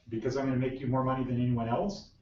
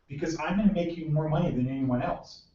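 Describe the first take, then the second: First: The voice rises at the end like a question. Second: The voice falls at the end like a statement. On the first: The speaker is unsure whether this is the wanted answer. The speaker calls it wrong. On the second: The speaker is confident in the claim. The speaker calls it right.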